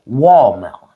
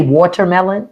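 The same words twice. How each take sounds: First: WALL MELON with no T, tail swallowed to "wall-mel"; lazy-tongued "wall-mel"; South Carolina pronunciation. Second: Said in the usual way. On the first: Shown as a demonstration. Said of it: "So they say wall melon". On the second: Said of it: "like I say watermelon".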